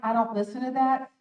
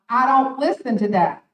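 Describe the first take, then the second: First: It sounds calm, firm and controlled. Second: It sounds harsh and aggressive. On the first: The speaker calls it right. "says, I'm in control assertively" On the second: The speaker calls it wrong. "It's not aggressive. It's not"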